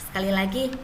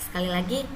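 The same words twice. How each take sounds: The two takes are said the same way.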